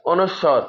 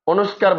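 First: অনুস্বর as o-nush-shor, no k; careful অনুস্বর; correct letter name. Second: অনুস্কার with a k, o-nush-kar; common mispronunciation. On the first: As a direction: say অনুস্বর with a doubled sh and open o. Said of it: "সঠিক উচ্চারণ হচ্ছে যে". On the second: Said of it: "বলে". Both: Shown as a demonstration.

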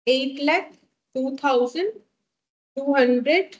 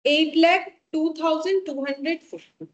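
First: Figure broken into chunks with pauses; slow dictation. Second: Said in the usual way. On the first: Real, not acted. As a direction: dictate the number piece by piece. Repeats total slowly for note-takers.

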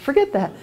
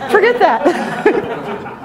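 First: Said in the usual way. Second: High, drawn-out words through laughter; laughing insistence. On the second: Real, not acted. Dismissing the fumes to her sister, laughing. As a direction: insist on it while cracking up.

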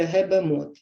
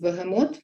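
First: «гебемот» with б and г swapped, whispered; «гебемот» whispered, sounds swapped; whispered child's slip. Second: Said in the usual way. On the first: Shown as a demonstration. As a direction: breathe «гебемот» as a child says it. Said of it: "ви почуєте". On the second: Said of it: "замість".

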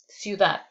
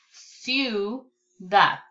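First: Said in the usual way. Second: CIUDAD split as "ciu... dad", pause between; syllable by syllable. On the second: Shown as a demonstration. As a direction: say "ciudad" in two separated, held syllables. Syllable take, then whole word.

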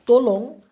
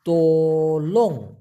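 First: Said in the usual way. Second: তোলং drawn out slowly, both syllables clear; careful slow pronunciation. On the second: Shown as a demonstration. Teacher carefully modelling তোলং for the class, slowly. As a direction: stretch তোলং so learners hear it. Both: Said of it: "উচ্চারণটা হবে".

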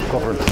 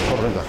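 Both takes have the same delivery.

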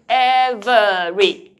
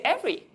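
First: "every" loud and slow as EV-ER-EE; over-enunciated "every" with the middle vowel kept; three clear syllables. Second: "every" said quickly as EV-ry; everyday two-syllable "every"; shortened to two syllables. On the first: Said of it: "Did you say three clear syllables?". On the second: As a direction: drop the middle vowel of "every". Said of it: "You shorten it". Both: Shown as a demonstration.

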